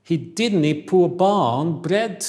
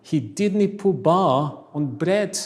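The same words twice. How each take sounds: First: Very slow, loud Scottish accent, dropped t's; Scottish glottal stops, drawn out. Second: Scottish accent. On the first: Teacher reads the Scottish sentence to class in Scottish accent. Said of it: "Scottish English". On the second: Teacher repeats the Scottish sentence to class slowly. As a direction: drop every t, Scottish style. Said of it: "Još jedanput". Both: Shown as a demonstration.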